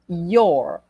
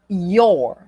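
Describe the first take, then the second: Both takes have the same delivery.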